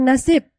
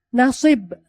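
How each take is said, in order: First: It is said with plain Indonesian sounds. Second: It is said with the original Arabic sounds. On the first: The speaker calls it wrong. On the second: The speaker calls it right.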